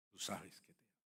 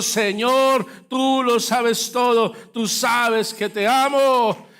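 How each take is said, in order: First: Much softer, intimate confession; Peter's soft confession of love; hushed tender reply. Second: Louder, higher and slow; Peter's answer, slow fervent preaching; fervent preached confession. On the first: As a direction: say it barely above a hush. Peter's quiet answer. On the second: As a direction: lean on every word as a cry of love. Climax of the sermon story. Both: Acted.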